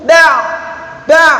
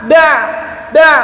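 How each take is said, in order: No difference in how they are said.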